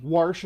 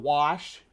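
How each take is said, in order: First: "warsh" with an r slipped in before the sh; dialect pronunciation. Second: Said in the usual way. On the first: Shown as a demonstration. Streamer listing local dialect words, dialect pronunciation. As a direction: say "warsh" for wash, with an added r. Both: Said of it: "warsh instead of wash".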